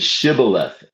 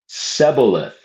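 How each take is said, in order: First: The word begins with a sh sound. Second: The word begins with a plain s sound. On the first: The speaker calls it right. "you're pr- supposed to say shibboleth" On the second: The speaker calls it wrong. "They pronounced it wrong. They didn't pronounce it shibboleth. They pronounced it Seboleth"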